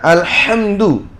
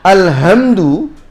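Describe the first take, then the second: First: The h is a tense, raspy throat sound. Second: The h is a light, plain breathy sound.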